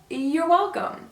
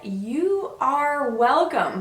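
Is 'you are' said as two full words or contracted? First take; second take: contracted; full. First: 'You are' is contracted into one syllable. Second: 'You are' is said as two full words. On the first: The speaker calls it right. "We usually say" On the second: The speaker calls it wrong. "that's not how we usually say this phrase"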